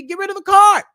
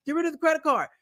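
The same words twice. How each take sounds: First: Shouted, higher: get rid of it; loud command. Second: Said in the usual way. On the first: Real, not acted. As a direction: yell the order at the viewer. Ranting about annual fees.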